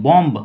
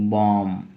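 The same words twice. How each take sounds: First: बॉम्ब with an audible "b" released after the m; sounded final B. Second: बॉम्ब said as "bom", ending on the m; silent final B. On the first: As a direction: wrongly voice the silent B in बॉम्ब. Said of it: "ब नहीं". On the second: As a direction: drop the b at the end of बॉम्ब. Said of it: "सिर्फ बोलते हैं हम लोग". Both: Shown as a demonstration.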